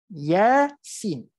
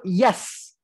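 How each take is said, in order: First: Each letter is said separately by its name. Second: The letters are blended into one syllable. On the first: The speaker calls it right. "dia tidak bergabung sebutannya. Sebab itulah kita sebut Yasin" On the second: The speaker calls it wrong. "Kita tidak sebut yas"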